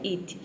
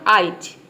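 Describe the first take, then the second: First: The vowel at the start sounds like 'ee'. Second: The vowel at the start sounds like 'eye'. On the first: "आई के जगह पे क्या रखा, ई रखा" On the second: "पहले आई रख दिया"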